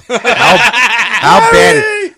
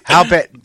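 First: High, loud, laughing through the words; cracking up mid-question; laughing disbelief. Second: Said in the usual way. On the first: Real, not acted. Laughing at a friend's movie pick, cracking up.

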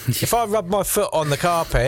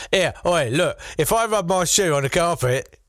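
First: Higher-pitched mock Massachusetts accent; first rough stab at a Massachusetts accent; supposed Massachusetts accent. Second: Hammed-up, higher mock Massachusetts settler accent; "authentic" old Massachusetts accent. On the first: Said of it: "in a Massachusetts accent, probably". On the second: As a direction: overdo a supposedly authentic early Massachusetts accent. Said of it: "so that's authentic now".

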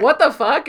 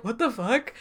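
First: Louder mock shock, thrown out fast; a hammed-up stunned what the fuck; shocked outburst. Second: Softer, flat stunned what the fuck; deadpan disbelief. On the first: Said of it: "And Strong's like". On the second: Retold or imitated. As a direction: mutter it in quiet disbelief. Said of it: "And Michael's like".

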